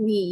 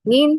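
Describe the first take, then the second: First: "নি" as an open syllable, no final n; informal pronunciation. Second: "নিন" closed with a final n, rising; formal pronunciation. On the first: Teacher contrasts informal with formal "you", open-syllable demo. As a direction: say "নি" ending on the open vowel. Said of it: "ওটা কি informal". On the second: Teacher gives the formal "you", closed rising-syllable demo. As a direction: end "নিন" on n with a lift. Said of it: "অর্থাৎ এটা formal". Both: Shown as a demonstration.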